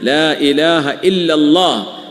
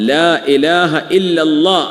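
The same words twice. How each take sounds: First: The l in Allah is heavy and full. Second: The same.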